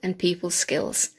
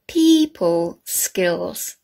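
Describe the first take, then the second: First: The phrase is said naturally, without exaggeration. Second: Each sound is pronounced in an exaggerated way. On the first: "how we normally say them" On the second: "this exaggerated way"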